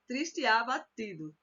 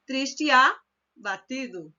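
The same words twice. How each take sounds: First: Said in the usual way. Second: Triste e abatido said slowly, the e swallowed into triste; teacher repeating the fused reading slowly; slow elided demo. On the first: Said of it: "é meio que engolir". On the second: Shown as a demonstration. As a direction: stretch it out so the joined syllable is heard. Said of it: "é meio que engolir mesmo aquela".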